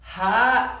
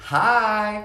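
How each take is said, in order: First: High, strained hi as the smile drops; smile gone. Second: High, drawn-out friendly hi; cheery greeting. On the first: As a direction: imitate a mom's forced, displeased hello. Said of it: "her smile immediately went away. It was like this". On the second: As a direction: imitate a mom's eager, welcoming hello. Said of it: "comes around the corner super quickly saying". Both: Retold or imitated.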